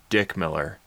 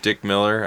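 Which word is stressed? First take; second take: Dick; Miller. First: The stress falls on the first name. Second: The stress falls on the surname. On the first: It names his job as someone who mills dicks. "I want to say it with different emphasis" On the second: It is simply the actor's name. "Instead of"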